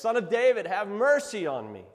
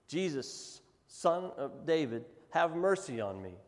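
First: It is said at a louder level. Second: It is said at a quieter level.

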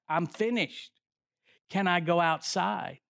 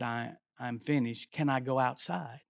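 First: It is said at a louder volume. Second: It is said at a softer volume.

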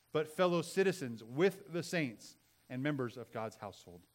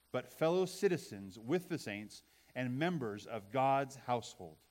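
No difference in how they are said.

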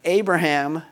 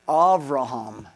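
First: The second consonant is a B sound. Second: The second consonant is a V sound. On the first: "we call" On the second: "with the V sound"

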